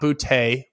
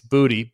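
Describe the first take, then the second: First: The name ends in a different vowel sound. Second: The name ends in an 'ee' sound. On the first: This is the former pronunciation. The speaker calls it wrong. "Not Boutte. It used to be Boutte" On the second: This is the current pronunciation. The speaker calls it right. "B-O-O-T-E-E is the pronunciation guide chart"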